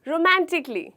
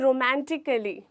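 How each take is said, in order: First: No -al- syllable is said before -ly. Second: An extra -al- syllable is said before -ly. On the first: The speaker calls it right. "हमें बोलना है क्या?" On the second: The speaker calls it wrong. "वो कहते हैं रोमांटिकली, जो बिल्कुल गलत है"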